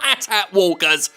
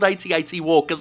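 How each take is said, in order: First: Each letter of AT is said separately. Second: Each AT is said as the word eighty. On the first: The speaker calls it wrong. "not AT-AT walkers, like fucking J J Brahms likes to say" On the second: The speaker calls it right. "that's what they're called"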